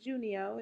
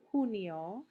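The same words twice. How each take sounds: First: The word begins with an English J sound. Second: The word begins with a breathy H sound. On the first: The speaker calls it wrong. "it's not junio" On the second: The speaker calls it right. "Remember the pronunciation of the letter J"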